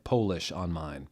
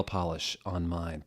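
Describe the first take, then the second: First: Polish said with a long O, POH-lish; "Polish" read as the nationality, POH-lish, as a joke; Polish as in from Poland. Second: Said in the usual way. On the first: Shown as a demonstration. The reader misreading nail polish on purpose, saying "Polish" as POH-lish. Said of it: "I'm saying it's Polish". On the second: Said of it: "Polish and polish are spelled the same way".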